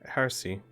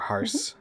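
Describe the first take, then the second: First: The final E is sounded as a syllable. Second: The final E is left silent.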